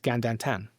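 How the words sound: It is said in a Sheppey accent.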